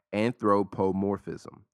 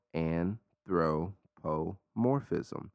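First: Said in the usual way. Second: "Anthropomorphism" drawn way out, syllable by syllable; super slow. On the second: Shown as a demonstration. Podcaster leading listeners through a long word, super slow. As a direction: say "Anthropomorphism" super slowly, a pause between parts. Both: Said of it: "super slow".

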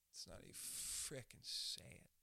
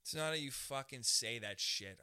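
First: Low, slow whisper; hushed delivery. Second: Loud, emphatic statement; forceful delivery. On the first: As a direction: whisper it slowly, leaning on "frickin'". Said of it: "It's not how you say it". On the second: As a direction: say it out loud and hard. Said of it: "How you say shit". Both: Shown as a demonstration.

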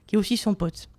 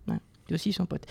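First: Said in the usual way. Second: Repeated much softer, stress on "aussi"; sly aside. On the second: Real, not acted. Columnist repeating a jab for listeners, in a soft sly aside. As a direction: drop the voice on "aussi son pote" like a knowing aside.

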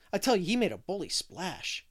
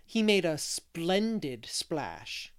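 First: "bully splash" said as the slangy slip, tell stressed; blurting "bully splash" before catching himself; slip of slang. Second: "splendid splash" said slowly and carefully; correcting "bully" to "splendid", slowly and deliberately; careful correction. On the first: Boy blurts slang to Anne, an eager slip. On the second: Boy corrects his slang for Anne, slow and careful. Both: Retold or imitated. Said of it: "I didn't mean to say that".

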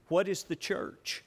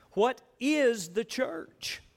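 First: Said in the usual way. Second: Slow, higher question leaning on "is"; stress on IS. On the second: Shown as a demonstration. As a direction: draw out "is" in "What is the church?". Repeats question for emphasis.

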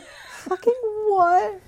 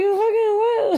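First: Slow, high, laughing disbelief; shocked disbelief. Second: High, stunned cry of disbelief; shocked disbelief. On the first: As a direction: drag it out, half laughing. Repeating the quote. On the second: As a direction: squeal it out in shock. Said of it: "And she's like". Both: Retold or imitated.

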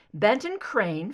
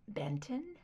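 First: Said in the usual way. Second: Startled breathless whisper; whispered surprise. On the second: Acted. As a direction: breathe the name in shock. Surprised echo of name.

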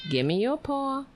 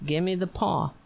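First: Much higher pet-talk voice; high coaxing. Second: Said in the usual way. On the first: Shown as a demonstration. Owner tries saying it like that to the dog, high coaxing. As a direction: lift it high to coax the dog. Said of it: "maybe I have to say it like that".

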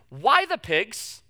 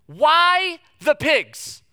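First: Said in the usual way. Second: WHY the pigs said high, loud and slow; exasperated slow demand; louder, exasperated. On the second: Shown as a demonstration. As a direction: stretch out Why the pigs in disbelief.

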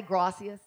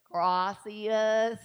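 First: Said in the usual way. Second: Gracias drawn out in a thick Southern accent; Southern-accented Spanish. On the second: Shown as a demonstration. Preacher showing the congregation her Spanish, exaggerated Southern accent. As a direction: stretch gracias slowly with a Southern twang. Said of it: "with my Southern accent".

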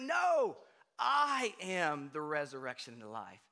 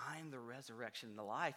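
First: Emphatic declaration. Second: Soft, low, quick; Jesus answering the grieving sister quietly; quiet quote. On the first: Jesus correcting the grieving sister, loud and emphatic. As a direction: insist on it with force. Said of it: "he's like". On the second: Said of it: "he says". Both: Retold or imitated.

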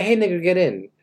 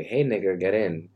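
First: A livelier shout-out from the car window; bolder call from a car. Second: Relaxed offhand call to a passenger; offhand greeting through the car window; casual call from a car. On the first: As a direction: call it out confidently to the girl. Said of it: "No, actually a girl". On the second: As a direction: toss it out lazily from the driver's seat. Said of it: "And I wanna say". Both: Pretend.

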